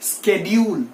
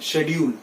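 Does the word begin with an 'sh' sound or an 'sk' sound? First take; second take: sk; sh. First: The word begins with an 'sk' sound. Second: The word begins with an 'sh' sound. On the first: The speaker calls it right. "professionally the right pronunciation for this word is schedule" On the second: The speaker calls it wrong. "बहुत से लोग शेड्यूल बोलते हैं"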